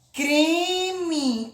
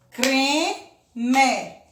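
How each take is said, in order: First: Said in the usual way. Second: "Creme" in two beats, cre - me, full final e; split into syllables. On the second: Shown as a demonstration. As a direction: pause between the syllables of "Creme". ("Creme" separado, com e final pleno: cre - me) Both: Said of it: "Também é uma palavra dissílaba".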